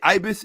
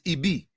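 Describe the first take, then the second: First: The word ends with an s sound. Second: The word ends with a vowel sound. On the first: The speaker calls it wrong. "who you say ibis" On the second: The speaker calls it right. "is ibi"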